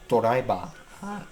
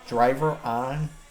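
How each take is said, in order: First: It is said with added Japanese vowels. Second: It is said with plain English sounds.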